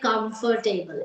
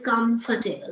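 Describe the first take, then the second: First: The ending is said fully, like the word table. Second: The ending is reduced, with no table sound. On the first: The speaker calls it wrong. "they say comfortable. It is not comfortable" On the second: The speaker calls it right. "No table is there. It is comfortable"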